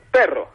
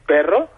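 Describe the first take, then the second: First: Perro with a short falling tune. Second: Perro with a questioning rise at the end; rising perro. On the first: Explaining intonation on the phone, perro said falling. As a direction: drop perro down flat and final. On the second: Explaining intonation on the phone, perro said rising. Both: Shown as a demonstration. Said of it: "voy cambiando la entonación".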